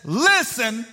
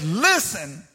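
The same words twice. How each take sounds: First: "Listen" called out sharply; exclaimed listen. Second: "Listen" dropped low and firm; lower exclaimed listen. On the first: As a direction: bark the one word like a command. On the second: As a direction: say it low with weight. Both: Shown as a demonstration. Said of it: "with an exclamation point".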